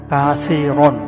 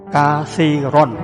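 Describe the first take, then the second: The two takes are said the same way.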